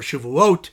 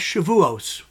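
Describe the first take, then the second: First: The word ends with a t sound. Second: The word ends with an s sound.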